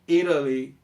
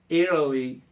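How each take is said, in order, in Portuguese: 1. O T é um flap rápido, entre r e d. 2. O T é um flap rápido, entre r e d.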